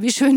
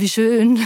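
First: It sounds sincere and positive. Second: It sounds sarcastic and unconvinced.

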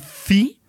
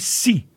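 First: The consonant is a lisped th sound. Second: The consonant is a hissed s sound. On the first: This is the Spanish of Spain. "in Spanish would be thi" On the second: This is Latin American Spanish. "in Latin American Spanish would be si"

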